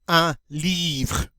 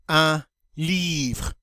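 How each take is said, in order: The two takes are said the same way.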